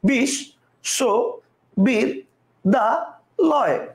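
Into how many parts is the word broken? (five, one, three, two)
five. The word is broken into five separate parts. "কয়টা হলো পাঁচটা"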